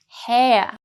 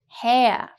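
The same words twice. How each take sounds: Both takes have the same delivery.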